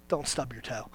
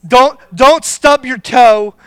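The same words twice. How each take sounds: First: Low, much softer "Don't stub your toe" tossed off under the breath; hushed low-key "Don't stub your toe"; muttered warning. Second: "Don't, don't" hit hard, louder and slow; slow, loud, stressed "Don't, don't stub your toe"; emphatic warning. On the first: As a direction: mutter "Don't" low and soft, almost to yourself. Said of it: "I know what comes out of you when you stub your toe". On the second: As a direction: lean into "Don't" slowly like a firm warning. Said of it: "I know what's gonna come out". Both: Shown as a demonstration.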